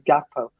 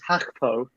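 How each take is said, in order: First: The name begins with a hard G sound. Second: The name begins with a breathy H sound. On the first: This follows how the name is written. "it's spelled out as Gakpo" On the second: This follows how others have said the name. "I've heard it as Hakpo"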